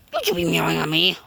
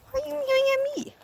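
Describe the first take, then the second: First: Said in the usual way. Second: Pet voice. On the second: Real, not acted. Asking the meowing cat, very high squeaky. Squeaky voice then plain scold.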